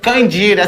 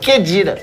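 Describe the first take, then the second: First: The name begins with a nasal 'Kan' syllable. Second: The name begins with a plain 'Ke' syllable. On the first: The speaker calls it wrong. "Você falou Candira" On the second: The speaker calls it right. "É Kedira"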